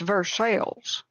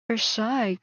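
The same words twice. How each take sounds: First: The name is said with a local English pronunciation. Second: The name is said with a French pronunciation. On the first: The speaker calls it right. "they're like it's Versailles" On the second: The speaker calls it wrong. "when I try to pronounce things like French"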